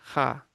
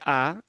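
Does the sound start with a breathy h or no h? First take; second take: breathy h; no h. First: The sound starts with a light breathy h. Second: The sound starts with no breath of h. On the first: The speaker calls it right. "é levemente aspirada" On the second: The speaker calls it wrong. "não é A"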